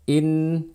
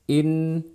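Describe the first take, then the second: The two takes are said the same way.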